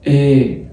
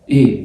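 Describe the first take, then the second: First: The vowel is said long and relaxed. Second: The vowel is said short and clipped. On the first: "برخي اعصابي كده وبتطول شويه" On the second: "هتتنطق إيه قصيرة"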